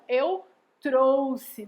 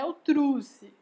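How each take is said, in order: First: Slow "eu trouxe" with an oh vowel, "trosse"; correct pronunciation. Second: "eu trouxe" said as "eu trusse"; wrong pronunciation. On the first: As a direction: separate "eu" and "trouxe", clearly saying "trosse". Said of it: "Dizer assim". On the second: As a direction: swap the vowel in "trouxe" to oo, as children do. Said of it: "não é". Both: Shown as a demonstration.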